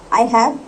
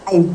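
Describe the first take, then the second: First: Both words are said fully and separately. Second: The words are squeezed into one short syllable. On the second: "आई हैव ना करके आई"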